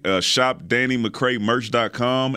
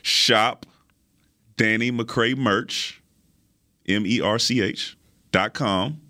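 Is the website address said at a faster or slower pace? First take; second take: faster; slower. First: The address is said at a quick, normal pace. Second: The address is said slowly and deliberately.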